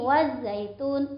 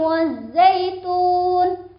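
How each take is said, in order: First: The z sound is single and light. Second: The z sound is doubled and pressed. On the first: The speaker calls it wrong. "itu salah ya" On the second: The speaker calls it right. "membacanya harus ada penekanan"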